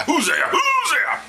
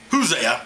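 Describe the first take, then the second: First: High-pitched drawn-out cry of the name; mock-bellowed name, stretched out; exaggerated shout. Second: Said in the usual way. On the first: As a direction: holler it long and high. Clarifying the name, calling it out.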